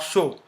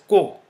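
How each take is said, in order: First: The syllable begins with a soft SH sound. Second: The syllable begins with a hard K sound. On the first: The speaker calls it wrong. "not show" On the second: The speaker calls it right. "it is pronounced as ko"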